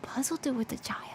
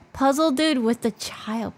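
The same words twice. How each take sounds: First: Whispered to herself. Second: Said in the usual way. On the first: Real, not acted. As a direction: mutter it under your breath in a whisper. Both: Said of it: "repeated in a whisper".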